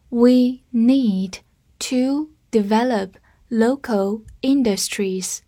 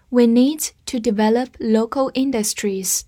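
First: Slow reading. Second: Said in the usual way. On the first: Shown as a demonstration. Teacher reading the sentence slowly with students. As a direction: read it slowly, phrase by phrase. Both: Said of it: "我们慢慢来读".

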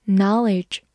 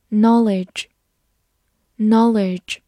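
First: American-accented "knowledge"; American pronunciation. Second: Said in the usual way. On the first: Shown as a demonstration. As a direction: say "knowledge" the American way, with an open first vowel. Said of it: "美式发音". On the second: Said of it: "美式发音knowledge".

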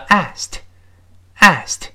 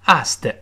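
First: "asked" as one syllable closing on a crisp "t"; one-syllable ending. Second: "asked" wrongly split, with an added "tuh" at the end; extra final syllable. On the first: Teacher models for learners "asked" ending in a bare "t". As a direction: say "asked" as "ast", no added vowel. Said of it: "不这么读，叫". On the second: Teacher shows what to avoid, "asked" with an extra syllable. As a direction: say "asked" as two beats, "ast-tuh". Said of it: "而不要读". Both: Shown as a demonstration.

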